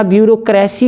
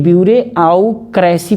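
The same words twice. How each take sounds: First: Said in the usual way. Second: ब्यूरोक्रेसी stretched out as "byure-au-kresi"; ब्यूरोक्रेसी in three memory chunks; spelling pronunciation. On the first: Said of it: "हमको पढ़ना ब्यूरोक्रेसी ही है". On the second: Shown as a demonstration. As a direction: read ब्यूरोक्रेसी with "re" and a separate "au". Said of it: "लेकिन ब्यूरोक्रेसी पढ़ना है".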